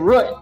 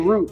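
First: The word is said in a country accent. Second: The word is said in a standard accent. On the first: This is how people from the country say it. "I'm from the country, from Oklahoma. We say root" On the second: This is how people outside the country say it. "We don't say root"

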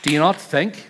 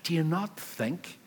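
First: It is said in a harsh, scolding tone. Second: It is said in a warm, encouraging tone. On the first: The listener is being rebuked as foolish. The speaker calls it wrong. "It's not, do you not think, like, what is wrong with you?" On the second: The listener is being gently reassured. The speaker calls it right. "It's an encouragement, not a rebuke"

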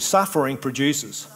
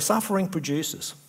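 First: It is said with more attitude and force. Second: It is said in a plain, neutral way.

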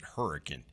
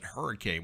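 First: The name is said the local way. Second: The name is said the general, non-local way. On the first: The speaker calls it right. "we pronounce it hurricane" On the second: The speaker calls it wrong. "we don't pronounce it hurricane"

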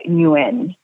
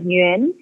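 First: The name has an American English pronunciation. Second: The name has a Vietnamese pronunciation. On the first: "in America, they pronounce it as like Nguyen" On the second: "in Vietnamese, it's like Nguyen"

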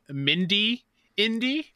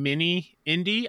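First: The first word is said as 'Mindy', with a 'd'. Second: The first word is said as 'mini', without a 'd'. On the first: The speaker calls it wrong. "I was saying Mindy indie" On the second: The speaker calls it right. "instead of saying mini indie"

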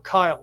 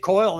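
First: The vowel sounds like 'eye'. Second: The vowel sounds like 'oy'. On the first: The speaker calls it right. "the sound is more Kyle" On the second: The speaker calls it wrong. "I always say Coyle, and that's not right"

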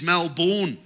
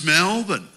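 First: It is said with a South African accent. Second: It is said with an Australian accent.

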